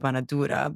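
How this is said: It is said the Lebanese way, banadura.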